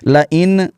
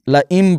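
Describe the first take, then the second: First: The word ends with an n sound. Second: The word ends with an m sound. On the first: The speaker calls it wrong. "ऐसे नहीं" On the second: The speaker calls it right. "ला इम पढ़ेंगे"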